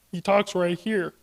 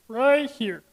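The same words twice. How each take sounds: First: Slow, voice set far back; Kermit-like throat placement. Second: Higher, strained back-of-throat voice; squeezed Stitch-like placement. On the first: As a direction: speak from the back of the throat, unstrained. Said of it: "he talks all the way back here". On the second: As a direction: push it up and strain it a little. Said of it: "straining your voice a little bit". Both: Shown as a demonstration.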